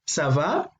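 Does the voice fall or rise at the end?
rise. The pitch rises at the end. It asks how someone is doing. "when someone asks you ça va?"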